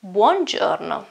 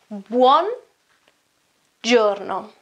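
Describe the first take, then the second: First: Said in the usual way. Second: "buon", a clear pause, then "giorno"; split into two words. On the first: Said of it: "The first one". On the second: Shown as a demonstration. Teacher showing the two-word spelling, split by a pause. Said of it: "split into two words".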